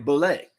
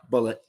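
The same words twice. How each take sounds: First: The word is said with a French-sounding pronunciation. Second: The word is said with a plain English pronunciation. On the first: The speaker calls it wrong. "I immediately think French, right?" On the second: The speaker calls it right. "but no"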